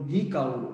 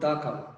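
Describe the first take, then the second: First: 'The' is pronounced with a long 'ee' vowel. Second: 'The' is pronounced with a short 'uh' vowel. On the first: The speaker calls it right. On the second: The speaker calls it wrong. "Not দা cow"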